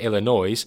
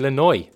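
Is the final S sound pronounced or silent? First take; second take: pronounced; silent. First: The final S sound is pronounced. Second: The final S sound is silent.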